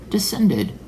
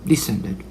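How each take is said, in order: First: "Descended" starting high and falling. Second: Said in the usual way. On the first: Shown as a demonstration.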